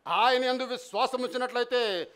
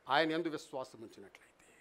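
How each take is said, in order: First: Said in the usual way. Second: ఆయన యందు విశ్వాసం ఉంచినట్లయితే said lower and much softer, almost to himself; soft first take. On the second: Shown as a demonstration. Preacher quietly musing to the congregation on trusting Him, hushed and low.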